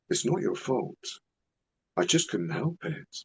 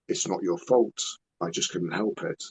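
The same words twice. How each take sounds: First: It is said in a weird, creepy put-on voice. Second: It is said in a normal, plain voice.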